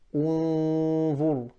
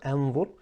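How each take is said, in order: First: The word begins with an u vowel. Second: The word begins with an a vowel. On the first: The speaker calls it right. "I start with this hamza with a dhamma" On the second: The speaker calls it wrong. "I did not say inzur or anzur"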